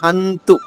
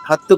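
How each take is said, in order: First: The word has a nasal sound before the t. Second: The word has a doubled t without a nasal. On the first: The speaker calls it right. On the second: The speaker calls it wrong. "హత్తు కాదు"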